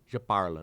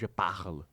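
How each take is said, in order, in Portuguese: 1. O R é pronunciado leve, não na garganta. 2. O R é pronunciado fundo, na garganta. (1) "O é, africano não tem" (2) "não je parle"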